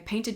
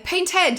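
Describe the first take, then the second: First: The final syllable has a reduced schwa vowel. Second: The final syllable has a full, fancy vowel. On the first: The speaker calls it right. "it's a schwa sound" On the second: The speaker calls it wrong. "You don't say"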